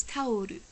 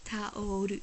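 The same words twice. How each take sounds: First: "taoru" as tah-oh-roo with a flapped r; Japanese taoru. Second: "Taoru." repeated slowly, tah-oh-roo; Japanese taoru. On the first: Teaching viewers the Japanese word for towel, in Japanese. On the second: Teaching viewers Japanese, repeating the word slowly. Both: Shown as a demonstration. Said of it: "a towel is taoru".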